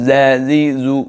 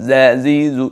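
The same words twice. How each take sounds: The two takes are said the same way.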